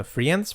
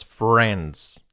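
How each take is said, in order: First: "friends" said as spelt, with an i sound; wrong pronunciation. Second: "friends" as "frends", one plain e; correct pronunciation. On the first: Teacher showing the error, mispronounced "friends". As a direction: mispronounce "friends" as "free-ends". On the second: Teacher correcting learners, correct "friends". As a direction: say "friends" without any i sound. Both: Shown as a demonstration. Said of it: "No friends".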